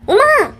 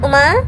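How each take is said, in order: First: The name is called sharply and rudely. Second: The name is called softly and calmly. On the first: The caller is showing off toughness. "இதே உமாதான்" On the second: The caller is being gentle and polite. "எவ்வளவு ஒரு சாஃப்டா எப்படி ஒரு அமைதியா கூப்பிட்டா"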